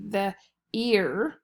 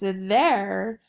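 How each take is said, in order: First: The vowel is a long E sound. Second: The vowel is an air sound. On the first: The speaker calls it wrong. "really this should be a long E too" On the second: The speaker calls it right. "the E I R makes the air sound"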